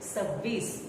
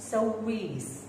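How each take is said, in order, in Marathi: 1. पहिला स्वर ओठ सपाट ठेवून म्हटला जातो. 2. पहिला स्वर ओठ गोल करून म्हटला जातो. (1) "म्हणतानाच सव्वीस असं म्हणायचंय" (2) "जसा तुमचा तोंडाचा चंबू होतो"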